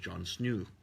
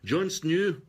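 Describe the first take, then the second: First: It is said in the speaker's ordinary accent. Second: It is said in an imitated Irish-like accent.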